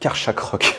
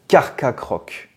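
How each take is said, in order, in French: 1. La deuxième syllabe commence par un son sh. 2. La deuxième syllabe commence par un son k. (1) "moi, je vais continuer à dire Karchakroc" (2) "il devrait être prononcé Carcacroc"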